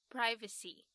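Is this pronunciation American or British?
American. It is said with an American pronunciation. "前面都是发 i 的音哈"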